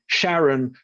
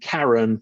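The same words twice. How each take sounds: First: It begins with a sh sound, like Charlene. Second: It begins with a hard k sound. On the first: It honours the discoverer's wife. "a lot of scientists will pronounce the moon Charon ... because it's named after Charlene" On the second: It names the mythological boatman. "rather than Charon"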